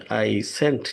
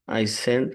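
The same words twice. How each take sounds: First: I sent with a crisp t at the end of sent; teacher stressing the t in sent; clear final t. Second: Teacher stressing the d in send; clear final d. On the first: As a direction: end sent on a sharp t sound. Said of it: "টি উচ্চারণ". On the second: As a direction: end send on a distinct d sound. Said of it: "ডি উচ্চারণ". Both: Shown as a demonstration.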